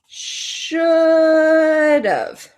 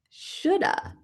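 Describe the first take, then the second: First: The words blend, ending in a 'v' sound. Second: The words blend, ending in an 'uh' sound. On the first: "like a contraction here" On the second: "How can we combine these to sound a little more natural?"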